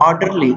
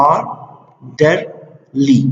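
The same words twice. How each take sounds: First: Said in the usual way. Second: آرډرلي very slowly, split as ar, der, lee with pauses; syllable by syllable. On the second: Shown as a demonstration. Teacher showing the syllables in a word, آرډرلي said syllable by syllable. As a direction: break آرډرلي into three separated beats. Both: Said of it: "دې کې سیلیبلز دي".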